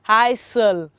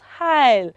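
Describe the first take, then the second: First: An s sound is heard in the word. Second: No s sound is heard in the word. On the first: The speaker calls it wrong. "normally you will pronounce this as" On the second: The speaker calls it right. "It's silent. And so it is pronounced as"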